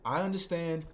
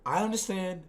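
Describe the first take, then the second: No difference in how they are said.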